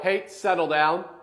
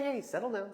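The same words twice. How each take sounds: First: The tone is firm and stern. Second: The tone is soft and gentle. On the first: Stop the biting right now. "much more firm" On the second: Calm down a little, no big deal. "a gentler"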